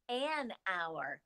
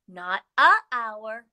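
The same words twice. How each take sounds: First: "an hour" quieter, leaning lightly on "an"; soft correction on "an"; right form softly. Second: "a hour" with the a hit hard as the wrong form; wrong form stressed. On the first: Teacher giving the correct article for hour, gently. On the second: Teacher contrasting wrong article before hour, stressing it. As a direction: mark "a" as the mistake. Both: Shown as a demonstration.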